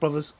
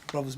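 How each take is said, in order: First: It is said loudly with a raised voice. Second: It is said calmly at normal volume. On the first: The matter is serious and urgent. "I'm raising my voice" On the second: Maybe he heard something. "if I just said it in that tone"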